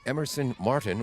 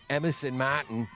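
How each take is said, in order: First: The name is said in a standard accent. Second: The name is said in a local regional accent.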